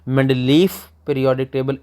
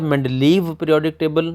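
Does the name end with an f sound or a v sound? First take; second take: f; v. First: The name ends with an f sound. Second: The name ends with a v sound. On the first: "एफ के साथ भी कह सकते हैं" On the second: "वाव के साथ भी कह सकते हैं"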